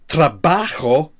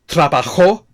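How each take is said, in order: First: The stress is on the second syllable. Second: The stress is on the final syllable. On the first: I work. "with the stress on the a" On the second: He or she worked. "we have the stress on the final syllable"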